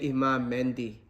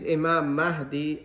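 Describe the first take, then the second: First: The name has an n sound before the d. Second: The name has no n sound before the d. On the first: The speaker calls it wrong. "they say Imam Mendi" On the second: The speaker calls it right. "The name is Imam Mahdi"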